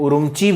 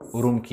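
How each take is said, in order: First: The last syllable starts with a ch sound. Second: The last syllable starts with a k sound. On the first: "इसको उरुमची भी पढ़ते हैं" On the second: "उरुमकी भी सही है"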